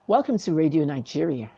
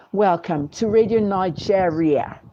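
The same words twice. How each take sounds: First: Said in the usual way. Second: Slow, put-on British radio announcer; affected British accent on "Nigeria"; mock British accent. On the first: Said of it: "You talk and you be yourself". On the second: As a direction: imitate a fake British newsreader. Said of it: "make up a British accent".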